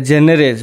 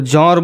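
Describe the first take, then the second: First: ଜେନରେଜ with an 'e' in the first syllable; anglicised pronunciation. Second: ଜନର with open 'o' vowels; alternative pronunciation. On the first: Teacher showing students one pronunciation of a term, ଜେନରେଜ said 'JEN-e-rej'. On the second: Teacher showing students how some others say it, ଜନର said 'JAW-nor'. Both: Shown as a demonstration. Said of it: "କେହି କେହି ତାଙ୍କୁ ଜନର ବୋଲି ମଧ୍ୟ କହନ୍ତି".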